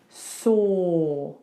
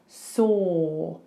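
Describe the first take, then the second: First: The vowel is a rounded 'or' sound. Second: The vowel is a rounded 'or' sound.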